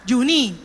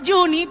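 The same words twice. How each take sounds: First: The stress is on the last syllable. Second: The stress is on the first syllable. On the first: This is how people from Colón said it. "pero para nosotros ¿cómo era?" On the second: This is how the name really was.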